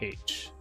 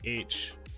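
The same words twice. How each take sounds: First: The letter name begins with an h sound. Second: The letter name begins with a vowel sound. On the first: "They pronounce the H more" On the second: "So we say H"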